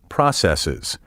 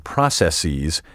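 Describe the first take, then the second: First: The final syllable has a short 'iz' sound. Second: The final syllable is pronounced like 'ease'. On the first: The speaker calls it right. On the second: The speaker calls it wrong.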